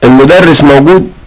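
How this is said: It is said with a questioning tune. The speaker is asking whether the teacher is there. "سألتك مثلا عن مدرسك فقلت المدرس موجود"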